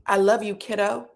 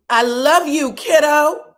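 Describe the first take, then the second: First: Said in the usual way. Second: Louder, higher retold declaration of love; emphatic affection. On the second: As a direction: belt out the endearment, acting her part. Acted quote, repeated louder.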